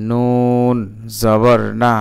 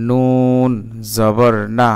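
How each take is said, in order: Both takes have the same delivery.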